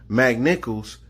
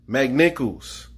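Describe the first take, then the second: Both takes have the same delivery.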